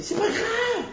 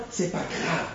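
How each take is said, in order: First: High, laughing "C'est pas grave"; laughing reassurance. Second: Said in the usual way. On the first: Acted. Acted reassurance to a spouse. (« C'est pas grave » dit en riant, très aigu)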